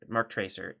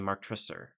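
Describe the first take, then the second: First: The name is said with an English accent. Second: The name is said half English, half French. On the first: "a lot of people say it that way" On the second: "you can go half and half"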